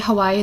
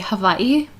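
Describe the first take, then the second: First: The middle consonant is a W sound. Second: The middle consonant is a V sound. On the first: The speaker calls it wrong. "they don't say Hawaii" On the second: The speaker calls it right. "they say Hawaii. ... With a V? Yeah"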